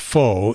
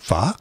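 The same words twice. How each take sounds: First: It is said like a plain English word. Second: It is said with a melodic, tonal lilt. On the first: "is not pronounced pho" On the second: "if you put the uh, Oriental um, lilt to it"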